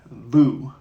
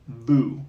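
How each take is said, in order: Both takes have the same delivery.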